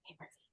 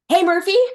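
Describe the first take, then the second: First: It is muttered quietly under the breath. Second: It is said loudly and with too much energy.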